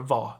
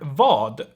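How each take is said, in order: First: The final d is dropped. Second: The final d is pronounced.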